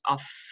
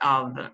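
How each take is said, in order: First: The word ends with an f sound. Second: The word ends with a v sound. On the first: The speaker calls it wrong. "it's not off" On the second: The speaker calls it right. "it's of, we have v"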